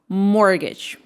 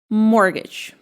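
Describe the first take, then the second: First: The t sound in the middle is silent. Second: The same.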